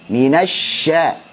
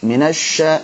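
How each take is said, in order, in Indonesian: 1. Bunyi sya mengalir dan ringan. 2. Bibir dibulatkan pada bunyi sya.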